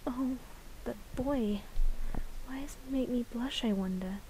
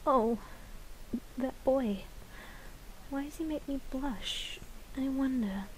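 First: Put-on a bashful girl murmuring to herself; shy flower girl. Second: Put-on softer, whispered "that boy", then a quiet sigh of a question; a dreamy, blushing girl; shy flower girl. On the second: Flower girl daydreams about the boy, hushed and soft. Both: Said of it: "vocal lines for that flower girl".

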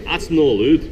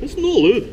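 First: Scottish "no allowed", louder; "That's no allowed" in Scots with "no" rising; Scottish accent. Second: Scottish "no allowed" jumping much higher; "It's no allowed" high and loud in Scots, falling on "no"; Scottish accent. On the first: Jester scolding the deer in a Scottish accent. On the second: Jester insisting in a high Scottish accent. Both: Acted. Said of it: "soft, but hopefully decisive Scottish dialect".

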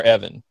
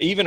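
First: "Evan" said with a short E, as EH-van; short E pronunciation. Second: "Evan" said with a long EE, as EE-van; long E pronunciation. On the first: Interviewer offering the other name option, "Evan" pronounced EH-van. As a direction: say "Evan" starting like "ever". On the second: Interviewer checking her son's name, "Evan" pronounced EE-van. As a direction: say "Evan" starting like "even". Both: Shown as a demonstration. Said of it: "is it Evan or Evan".

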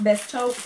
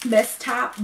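First: "Taupe" said long as tohp, rising; "Taupe" with a long o, like rope; corrected pronunciation. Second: "Best Top" with a short open o as in top; "Top" said like the word top; unsure pronunciation. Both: Shown as a demonstration.

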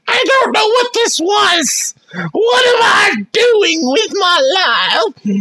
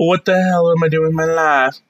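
First: Mock wail. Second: Said in the usual way. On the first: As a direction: wail it in fake despair.

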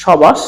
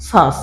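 First: সবাস loud, with ব fully sounded; wrong pronunciation. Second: শ্বাস as one syllable, silent ব; correct pronunciation. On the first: Teacher asking if we ever say this, wrong pronunciation. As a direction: break সবাস open as sho-bash, questioning. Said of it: "আমরা কি কোনো সময় বলছি". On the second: Teacher answering what we really say, correct pronunciation. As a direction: say শ্বাস as shash, no ব. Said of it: "আমরা বলছি কি". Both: Shown as a demonstration.

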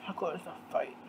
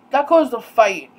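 First: Very soft, low repeat; muttered aside. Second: Louder, emphatic delivery; emphatic statement. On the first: Repeating the fight's cause to herself, muttered. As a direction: drop it to a low murmur. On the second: Telling viewers what his comments caused, emphatically. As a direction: state it forcefully, falling at the end. Says the line twice, second muted. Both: Real, not acted.

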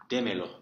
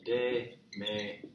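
First: Said in the usual way. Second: Slow, separated "Démelo"; teacher's slow word breakdown; syllable by syllable. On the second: Shown as a demonstration. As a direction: sound out "Démelo" one drawn-out syllable at a time. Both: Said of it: "Give it to me".

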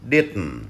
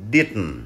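No difference in how they are said.

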